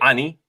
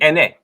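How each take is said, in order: First: The word begins with an open 'ah' vowel. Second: The word begins with an 'eh' vowel. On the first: This is how modern speakers say it. The speaker calls it wrong. "they say ani" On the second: This is how it should properly be said. The speaker calls it right. "it'd be ene"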